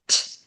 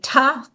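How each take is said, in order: First: The consonant is said alone with no vowel. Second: A vowel sound follows the consonant. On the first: The speaker calls it right. "T says t" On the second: The speaker calls it wrong. "T does not say ta"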